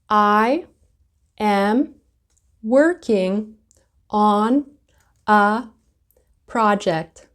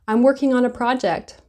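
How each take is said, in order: First: I am is said as two separate words. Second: I am is blended into one syllable.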